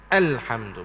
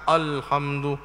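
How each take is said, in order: First: The opening vowel sounds thin and light. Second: The opening vowel sounds thick and heavy. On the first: The speaker calls it right. "Nipis dia, jangan ditebal" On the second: The speaker calls it wrong. "bukan alhamdu"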